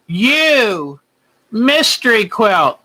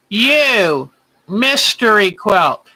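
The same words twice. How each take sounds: The two takes are said the same way.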